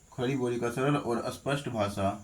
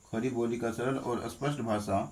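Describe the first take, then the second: Both takes have the same delivery.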